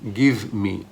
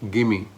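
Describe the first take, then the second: First: Both words are said separately and clearly. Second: The words run together into one short form.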